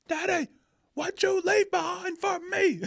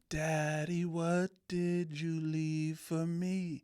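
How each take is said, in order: First: It sounds angry and aggressive. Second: It sounds curious and questioning.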